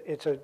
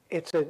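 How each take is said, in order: Both takes have the same delivery.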